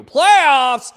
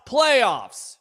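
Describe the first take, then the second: First: Loud playoffs shout; loud hype. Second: Said in the usual way. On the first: Real, not acted. Host hyping fans for the playoffs. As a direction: blast the word like a chant.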